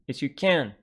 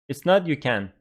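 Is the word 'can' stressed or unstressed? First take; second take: stressed; unstressed. First: The word 'can' is stressed and strong. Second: The word 'can' is weak and unstressed. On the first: It means the person is not able to. The speaker calls it right. "it's got stress, so you know that it is can't" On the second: It means the person is able to. The speaker calls it wrong.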